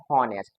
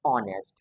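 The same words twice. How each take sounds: First: हॉनेस्ट with a voiced H at the start, ho-nest; mock the common mistake हॉनेस्ट with a clear h; wrong h sound. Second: ऑनेस्ट starting straight on the vowel, o-nest; silent h. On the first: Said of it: "इसमें को wrong पढ़ते हैं". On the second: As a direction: say ऑनेस्ट with no h at all. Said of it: "इसको पढ़ना पड़ता है". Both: Shown as a demonstration.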